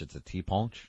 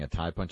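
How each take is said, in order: First: The name is said with French-style vowels. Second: The name is said with English-style vowels. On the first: The speaker calls it right. "is the French way of saying it" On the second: The speaker calls it wrong. "was I mispronouncing what I was saying?"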